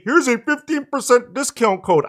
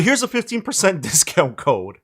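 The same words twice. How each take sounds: First: High mocking cartoon voice, pitched way up; failed SpongeBob voice. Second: Said in the usual way. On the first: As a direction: sneer it in a squeaky cartoon voice. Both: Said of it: "I can't do the SpongeBob voice".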